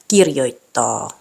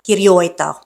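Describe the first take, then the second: First: The stress is on the first syllable. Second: The stress is on a later syllable. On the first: The speaker calls it right. "the stress is on the first syllable" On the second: The speaker calls it wrong. "aren't pronounced"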